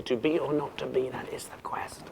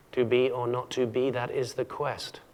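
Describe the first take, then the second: First: Fading to a whisper on "quest"; unable to finish. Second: "quest" said complete, ending the line; regular iambic verse. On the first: Acted. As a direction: let "that is the quest" die into breath, unfinished. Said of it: "But Hamlet can't say it". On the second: Shown as a demonstration. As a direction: land firmly on "quest" as the last beat, slowly. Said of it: "Perfect iambic pentameter".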